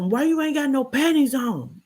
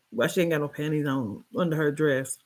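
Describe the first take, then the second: First: Higher, mocking man's voice; imitating him. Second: Said in the usual way. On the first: Retelling him demanding why the girl has no panties, mocking. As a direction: play him demanding, pitched up. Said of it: "He told me". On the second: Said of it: "What are you talking about".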